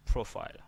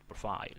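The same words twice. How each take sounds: First: PROfile with the first syllable punched; stress on the first syllable. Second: "profile" with a weak first syllable, pro-FILE; wrong stress placement. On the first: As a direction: lean on PRO in "profile", the ending lighter. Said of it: "the stress is on P". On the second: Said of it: "not profile". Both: Shown as a demonstration.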